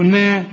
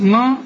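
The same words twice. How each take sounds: First: نا with a thin, fronted vowel; light na. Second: نا with a dark, backed vowel; wrongly heavy na. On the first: Shown as a demonstration. Teacher answering with the correct sound, light نا. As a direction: keep نا light and long. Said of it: "ولا نا برضو؟". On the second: Retold or imitated. Teacher questioning the student's mistake, heavy نا. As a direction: thicken the vowel of نا. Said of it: "أمال قلنا ليه نا؟".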